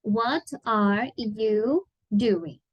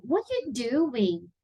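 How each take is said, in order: First: Very slow, word-by-word "What are you doing?"; careful, spaced-out "What are you doing?"; slow example reading. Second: "What are you doing?" as one linked, acted question; "What are you doing?" with a drawn-out questioning tune; questioning intonation. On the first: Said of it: "Vou colocar aqui um exemplo". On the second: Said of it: "usou uma entonação de pergunta mesmo". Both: Shown as a demonstration.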